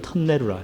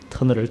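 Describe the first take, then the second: First: It is said with an older Busan-style pronunciation. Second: It is said with a plain standard pronunciation.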